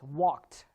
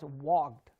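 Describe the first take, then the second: First: The word ends with a t sound. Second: The word ends with a d sound. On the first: The speaker calls it right. "The ed sound here becomes t. So it's walked" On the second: The speaker calls it wrong. "it's written ed, which says wogged. You don't pronounce it as wogged"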